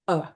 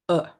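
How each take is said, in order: The two takes are said the same way.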